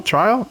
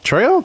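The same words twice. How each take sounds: First: Trial? rising, two syllables try-al; Trial? asked up high as try-ul; Trial? questioning, with the long i sound; trying the word out. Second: Trail? said high and rising, long ai-free ay vowel; Trail? asked up high, vowel as in rail; Trail? with a sharp questioning rise; trying the word out. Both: Shown as a demonstration. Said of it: "Or trial".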